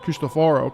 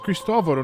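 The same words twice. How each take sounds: First: The first syllable sounds like 'Christ'. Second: The first syllable has a short 'kris' sound. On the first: The speaker calls it wrong. "don't say Christ" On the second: The speaker calls it right. "It's Cristoforo"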